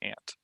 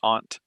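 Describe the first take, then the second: First: The word is said with a Texas pronunciation. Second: The word is said with a non-Texas pronunciation. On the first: "I say ant here in Texas" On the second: "Some people say aunt"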